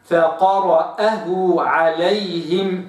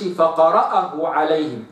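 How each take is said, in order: First: Slow فقرأه عليهم with the hamza clear; careful tajweed فقرأه; correct recitation. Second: فقرأه عليهم with the wrong vowels; wrong reading. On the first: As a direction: model فقرأه عليهم slowly for the student. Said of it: "وإنما". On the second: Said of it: "ما أقولش". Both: Shown as a demonstration.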